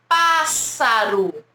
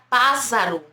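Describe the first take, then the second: First: The middle consonant is a hissing s sound. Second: The middle consonant is a buzzing z sound. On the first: The speaker calls it right. "dois S's entre duas vogais A" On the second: The speaker calls it wrong. "Se eu tivesse só um S aqui, ficaria pássaro. Olha que estranho"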